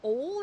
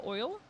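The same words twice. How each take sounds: First: "Oil" said as "ole", higher pitched; variant vowel. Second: "oil" with a clear oy, rising; standard vowel. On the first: Reading an example of accent, "ole" vowel. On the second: Comparing two versions, standard "oil". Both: Shown as a demonstration. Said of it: "Oil instead of oil".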